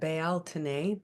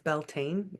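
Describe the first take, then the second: First: It is pronounced the traditional Celtic way. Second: It is pronounced the American English way. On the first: This is the name used in Celtic traditions. "they call it Bealtaine" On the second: This is the name used in American English. "it's Beltane in English, the how we say it in America"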